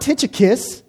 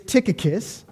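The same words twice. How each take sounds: First: The name is said with a 'ch' sound. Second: The name is said without a 'ch' sound. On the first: The speaker calls it wrong. "there is no ch sound in the Greek. So it's not Tychicus" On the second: The speaker calls it right. "it's Tychicus"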